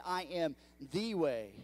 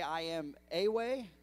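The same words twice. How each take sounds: First: "the" lengthened and stressed as "thee". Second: Said in the usual way. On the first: Shown as a demonstration. Pastor to the church, stressing "the" as "thee". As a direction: lean on "the" in "I am the way". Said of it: "He said". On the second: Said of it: "Did he say".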